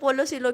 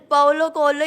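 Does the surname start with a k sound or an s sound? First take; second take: s sound; k sound. First: The surname starts with an s sound. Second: The surname starts with a k sound. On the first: The speaker calls it wrong. "ऐसे बोलते" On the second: The speaker calls it right. "ये एग्जैक्ट"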